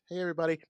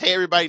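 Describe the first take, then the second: First: It is said with low energy. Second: It is said with more energy.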